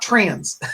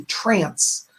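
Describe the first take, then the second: First: TRANS with a buzzing z sound at the end; trans, not trance. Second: TRANCE with a crisp "s" sound at the end. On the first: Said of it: "uh, not trans". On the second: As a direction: say "trance" ending in an unvoiced s. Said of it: "it's spelled T R A N C E". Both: Shown as a demonstration.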